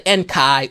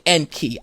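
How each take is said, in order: First: The final syllable sounds like 'kai'. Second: The final syllable sounds like 'key'. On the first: The speaker calls it wrong. "you don't say Enkai" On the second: The speaker calls it right. "you say Enki"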